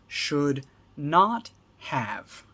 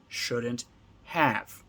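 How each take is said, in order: First: All three words are said fully and separately. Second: The first two words merge; 'have' stays full.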